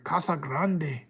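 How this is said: The name is said with a Spanish pronunciation. The speaker calls it right.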